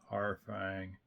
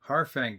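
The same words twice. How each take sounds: First: It is said in a dull, gloomy voice. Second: It is said in a glad, excited voice.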